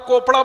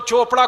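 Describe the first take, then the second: First: The name begins with a 'k' sound. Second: The name begins with a 'ch' sound. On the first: "केमिस्ट्री के हिसाब से कोपड़ा होना चाहिए"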